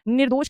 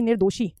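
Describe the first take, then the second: First: निर्दोष ending on sh; निर्दोष with no vowel after the final sh; correct form without i. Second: निर्दोषी ending in "shee"; निर्दोषी with an added final ee; wrong ee ending. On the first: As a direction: say निर्दोष as "nirdosh". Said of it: "निर्दोष कहते हैं". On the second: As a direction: say निर्दोषी as "nirdoshee". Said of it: "ना कि निर्दोषी". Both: Shown as a demonstration.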